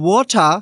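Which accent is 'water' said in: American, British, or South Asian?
British. It is said in a British accent. "Australian accent বা British accent"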